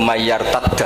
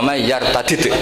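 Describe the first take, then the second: First: The final consonants merge into one doubled sound. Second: The final consonants stay separate with a vowel between.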